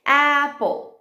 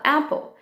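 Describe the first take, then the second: First: APPLE in two parts, "a", "pple"; syllable by syllable. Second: Said in the usual way. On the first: Shown as a demonstration. Teacher giving syllables to blend, broken up. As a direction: say APPLE slowly split for blending. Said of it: "Depois você faz as sílabas". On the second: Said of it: "Aí a criança tem que falar".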